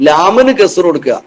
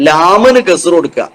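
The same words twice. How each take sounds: No difference in how they are said.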